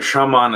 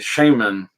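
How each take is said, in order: First: The word uses the older traditional pronunciation. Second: The word uses the common American pronunciation. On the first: It follows the word's original form. "closer to the old pronunciation, the old correct ethnic pronunciation of the word" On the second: It follows local American usage. "here in America, we say Shaman"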